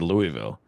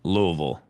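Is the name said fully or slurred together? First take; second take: fully; slurred. First: The name is said fully, each syllable clear. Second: The name is slurred together, syllables swallowed. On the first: This is how an outsider says it. The speaker calls it right. "I said Louisville" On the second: This is how locals say it. The speaker calls it wrong. "If you live there, they say they say Louisville"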